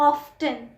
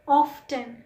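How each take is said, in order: Both takes have the same delivery.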